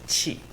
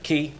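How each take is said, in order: First: The word starts with a ch-like sound. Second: The word starts with a hard k sound. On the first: The speaker calls it right. "Some of you were correct, and in fact said that it is qi" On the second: The speaker calls it wrong. "what a lot of people would say is something like ki"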